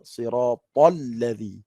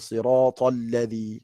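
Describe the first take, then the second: First: The t is said plainly, without a puff of air. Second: The t is said with a puff of air. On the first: The speaker calls it right. "Dia kena siratal ladzi" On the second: The speaker calls it wrong. "Tak ada siratal ladzi"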